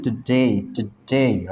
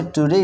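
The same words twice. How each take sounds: First: Today drawn out very slowly, clipped to "tu-de"; slow spoken today as "tude"; spoken-style today. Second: Today said as spelled, plain "too-day"; today spelled-out form; written-style today. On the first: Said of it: "क्या बोलते हैं?". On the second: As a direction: read today straight off the page. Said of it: "लेकिन हम speaking part की बात करें तो". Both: Shown as a demonstration.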